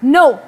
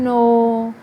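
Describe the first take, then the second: First: The word is said angrily with the pitch raised. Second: The word is said with the pitch falling low. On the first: "मैंने गुस्से से बोला, और इसमें मेरी pitch क्या हुई, राइज हुई" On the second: "अब फॉल हुई, और मेरी पिच नीचे गिरी"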